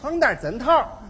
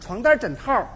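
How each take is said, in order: First: It is spoken with a Tianjin accent. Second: It is spoken with a Beijing accent. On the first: "到了天津就变味儿了。" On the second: "这北京大姑娘"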